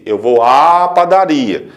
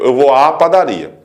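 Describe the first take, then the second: First: The vowel before padaria is clearly lengthened. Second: The vowel before padaria is short, barely lengthened. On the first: "Este A até mais longo na pronúncia do que o outro" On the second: "Na velocidade da fala, torna-se praticamente imperceptível"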